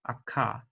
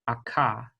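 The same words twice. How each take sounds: First: The consonant is a hard stop sound. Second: The same.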